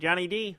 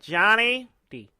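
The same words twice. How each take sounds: First: The D carries strong, heavy stress. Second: The D is said with lighter stress. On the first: The speaker calls it wrong. "You stress the D too much" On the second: The speaker calls it right. "That's better"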